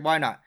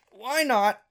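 First: Said in the usual way. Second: "Why not" jumped up high and pushed harder; higher repeat. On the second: Retold or imitated. Deciding to start a stream after the fight, "Why not" pitched up high. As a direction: throw the second "Why not" up high with resolve. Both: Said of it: "I figured".

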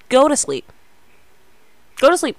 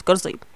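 First: Loud, high bossy order; bossy command. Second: Said in the usual way. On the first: Real, not acted. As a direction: order them straight to bed. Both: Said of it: "I'm just bossing you around".

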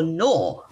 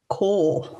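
First: Knorr said as "nor", starting on the N; silent K. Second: Knorr with a hard K sounded before the N; K pronounced. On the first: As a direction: drop the K in Knorr, begin with N. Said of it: "whether you pronounce the K or not". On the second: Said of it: "Depends on how you pronounce it". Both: Shown as a demonstration.

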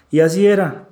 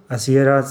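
First: "así" raised and louder on the first take; emphatic. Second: Said in the usual way. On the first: Real, not acted. Recalling the coach's doubts, firm emphatic stress. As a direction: press "así era" with a rising push.

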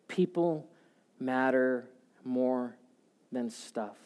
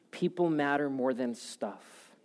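First: "People" set apart, then "matter more" slowed and pressed; spaced-out, weighty restatement of "People matter more than stuff"; slow emphatic. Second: Said in the usual way. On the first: Shown as a demonstration. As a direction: lay each word down with a pause between. Repeats line for emphasis.

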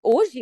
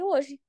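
First: A mildly surprised, louder "Hoje?" rising at the end; incredulous question. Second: Calm firm answer. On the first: Bosses disbelieving her resignation, mildly surprised retold "Hoje?". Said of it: "Aí eles". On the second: [name] confirming to her bosses, calm retold "Hoje.". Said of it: "Eu falei". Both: Retold or imitated.

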